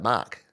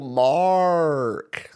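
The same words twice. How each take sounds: First: It is said in an Australian accent. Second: It is said in an American accent.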